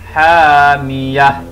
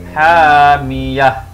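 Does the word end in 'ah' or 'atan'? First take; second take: ah; ah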